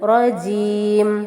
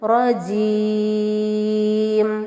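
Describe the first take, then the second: First: The long vowel is held for two counts. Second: The long vowel is held for four counts. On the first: "രണ്ട് ഹർക്കത്തിന്റെ സമയം എടുക്കുകയാണെങ്കിൽ" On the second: "നാല് ഹർക്കത്തിന്റെ സമയമാണ് എടുക്കുന്നതെങ്കിൽ"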